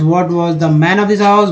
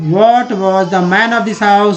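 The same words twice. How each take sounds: First: The sentence is said at a fast pace. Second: The sentence is said at a slower pace.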